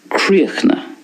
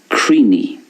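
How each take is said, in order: First: It is said in a Connacht Irish accent. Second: It is said in an Ulster Irish accent. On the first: "In Connacht then, we have a more of a silence at the end" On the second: "And in Ulster"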